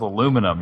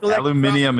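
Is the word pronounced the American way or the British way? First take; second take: American; British. First: The word is pronounced the American way. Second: The word is pronounced the British way.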